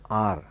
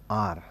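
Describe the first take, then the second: First: The word starts directly with a vowel sound. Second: The word starts directly with a vowel sound.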